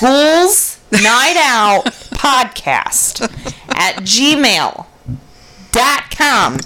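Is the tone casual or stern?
stern. It is said in a stern tone.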